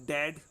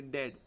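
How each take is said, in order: First: डैड with a long stressed open a. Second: डैड said short as plain dead; short simple e. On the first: Teacher shows pupils the stressed a in डैड. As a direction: lean on the a of डैड. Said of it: "यहाँ पर stressed ए है". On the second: Teacher contrasts dead with the stressed dad. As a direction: clip the vowel of डैड short. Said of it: "यहाँ पर डैड simple है". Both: Shown as a demonstration.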